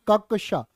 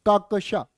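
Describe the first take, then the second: Both takes have the same delivery.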